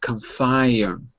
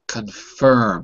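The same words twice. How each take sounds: First: The second syllable has an 'eye' vowel. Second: The second syllable has an 'er' vowel. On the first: The speaker calls it wrong. "you were saying I, iron" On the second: The speaker calls it right. "but it's er"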